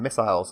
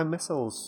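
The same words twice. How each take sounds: First: "missiles" said British-style, second half like "isles"; British pronunciation. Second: "missiles" said American-style, ending in a short "-uls"; American pronunciation. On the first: Shown as a demonstration. Player correcting his own American slip, British "missiles". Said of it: "I should be saying missiles instead". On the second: Real, not acted. British player slipping while recalling his thoughts, American "missiles". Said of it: "I don't know why I'm going American".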